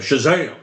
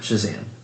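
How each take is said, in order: First: The word is shouted loudly and proudly. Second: The word is said weakly and without energy. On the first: The speaker calls it right. "a loud and proud kind of" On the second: The speaker calls it wrong. "If you're just like eh"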